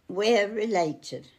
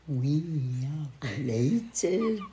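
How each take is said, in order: First: It is said in a plain, normal way. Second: It is said in a vampire voice.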